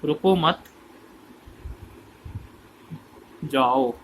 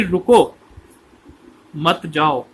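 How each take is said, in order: First: "रुको मत" together, long break, then "जाओ"; deliberate gap before a low जाओ; pause after मत. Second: "रुको", clear break, then "मत जाओ"; pause after रुको. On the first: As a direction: join मत to रुको, set जाओ apart. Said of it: "लोगों ने इसका मतलब ये ले लिया". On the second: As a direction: stop hard on रुको, then forbid going. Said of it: "वो कहना चाहता था". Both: Shown as a demonstration.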